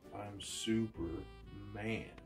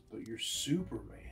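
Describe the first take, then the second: First: The stress is on man in Superman. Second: The stress is on super in Superman.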